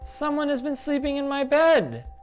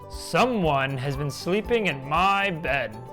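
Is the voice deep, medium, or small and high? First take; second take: small; deep. First: It is said in a tiny, high voice. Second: It is said in a deep, big voice.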